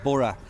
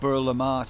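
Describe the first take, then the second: First: It is said as 'Borough', two short syllables. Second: It is said as 'Bur le Marche', sounding French. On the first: It is said the way locals say it. The speaker calls it right. "actually pronounced Borough" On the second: It is read the way the spelling looks. The speaker calls it wrong. "we said it when we first come, ... It sounds a little bit French"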